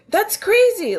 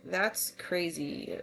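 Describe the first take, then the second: First: It is said in an excited, lively tone. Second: It is said in a serious, unexcited tone. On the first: It expresses enthusiasm about something. "like excitable for one meaning" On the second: Something shocking just happened. "because something crazy just happened"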